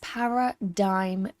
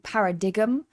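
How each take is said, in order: First: The g sound is silent in the word. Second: The g sound is pronounced in the word. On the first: The speaker calls it right. "but it is" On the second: The speaker calls it wrong. "this is often pronounced wrong because of the G. It looks like it should be"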